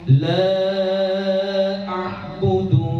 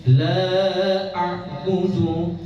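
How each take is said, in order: Both takes have the same delivery.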